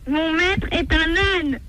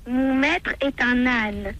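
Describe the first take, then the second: First: It is said loudly. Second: It is said softly.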